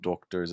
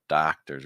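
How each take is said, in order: First: The first vowel is rounded, British-like. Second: The first vowel is a very open ah. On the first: The speaker calls it wrong. "almost British influence" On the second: The speaker calls it right. "Really open ah sound"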